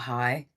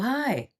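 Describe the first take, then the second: First: The greeting sounds wary and reluctant. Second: The greeting sounds warm and pleased. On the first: The caller is someone demanding money. "It's the collection agency" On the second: The caller is a loved family member. "It's your mother"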